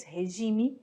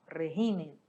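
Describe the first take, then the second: First: Regime with Brazilian h-sound and zh, he-ZHI-mi; Portuguese regime. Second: Regime with a rolled r and Spanish j, RRE-hi-me, stress on the first syllable; Spanish régimen. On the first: Teacher giving the Portuguese word, regime stressed on ZHI. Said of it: "Em português". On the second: Teacher contrasting with Spanish, regime stressed on RRE. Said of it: "em espanhol". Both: Shown as a demonstration.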